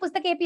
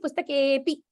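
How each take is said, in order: First: The 'e' vowel is held short. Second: The 'e' vowel is held long. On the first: The speaker calls it wrong. "we all say Pustakepi only" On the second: The speaker calls it right. "But it's actually Pustakepi. There is two matras there"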